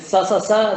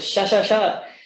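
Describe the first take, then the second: First: The consonant is a plain s sound. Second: The consonant is an sh sound. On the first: "some people pronounce it sa sa sa" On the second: "some people pronounce it sha sha sha"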